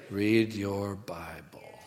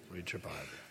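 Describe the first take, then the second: First: "Read your Bible" drawn out slowly, softer; slow exhortation. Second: "Read your Bible" low and hushed; very quiet aside. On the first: Preacher urging congregation, "Read your Bible" slowly and softly. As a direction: stretch each word of "Read your Bible". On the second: Preacher repeating to congregation, "Read your Bible" as hushed aside. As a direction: drop "Read your Bible" almost to nothing. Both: Real, not acted.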